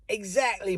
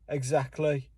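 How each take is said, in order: First: It is said in a Cockney accent. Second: It is said in a Birmingham accent. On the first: "in Cockney English, they may say" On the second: "Or in fucking Birmingham, they may say"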